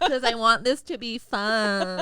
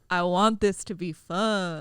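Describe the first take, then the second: First: The voice sounds very nasal. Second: The voice sounds low and deep.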